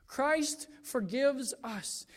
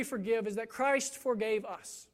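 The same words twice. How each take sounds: First: "Christ forgives us" spoken aloud, slow and deliberate; slow down and give each word of "Christ forgives us" weight; slow emphasis. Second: Hushed whisper on "Christ forgave us", "Christ" leaned on. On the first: Restated slowly aloud. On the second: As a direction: let "Christ forgave us" drop to a reverent whisper. Key reason spoken hushed. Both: Shown as a demonstration.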